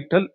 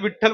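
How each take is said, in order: First: The word begins with a vowel, dropping the V. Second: The word begins with a clear V sound.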